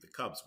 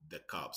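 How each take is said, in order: First: It is said in a standard American accent. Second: It is said in a strong Chicago accent. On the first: "would be the Cubs" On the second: "we say the Cubs"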